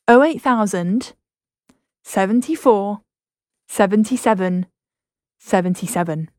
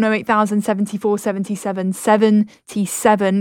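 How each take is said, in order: First: The number is said slowly. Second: The number is said at normal speed.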